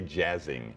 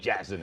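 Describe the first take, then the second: First: The final g sound is fully pronounced. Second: The final g sound is dropped. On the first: The speaker calls it wrong. "you can't just say jazzing. It just doesn't sound right" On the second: The speaker calls it right. "It's got to be jazzing it up"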